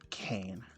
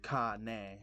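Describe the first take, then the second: First: The name is said with an American English pronunciation. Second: The name is said with a Japanese pronunciation. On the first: This is the adapted form people use. The speaker calls it wrong. "not Cain" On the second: This is the original form of the name. The speaker calls it right. "It's actually pronounced Ka-ne"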